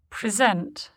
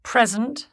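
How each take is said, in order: First: "present" as a verb, pri-ZENT; stress on second syllable. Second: "present" as a noun, PREZ-ent; stress on first syllable. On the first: Teacher shows the verb, "present" stressed on SENT. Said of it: "stressed on the stem". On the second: Teacher shows the noun, "present" stressed on PRES. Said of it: "stressed on the prefix". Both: Shown as a demonstration.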